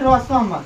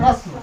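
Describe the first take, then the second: First: A full vowel separates the s and m. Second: The m follows the s with no vowel. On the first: The speaker calls it wrong. "ऐसे नहीं बोलेंगे कि रसम" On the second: The speaker calls it right. "आधा स तो आधा रस, म तुरंत म बोल देंगे"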